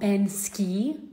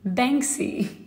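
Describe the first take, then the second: First: The k sound comes after the s sound. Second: The k sound comes before the s sound. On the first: The speaker calls it wrong. "it's not Bansky" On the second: The speaker calls it right. "No, it's Banksy"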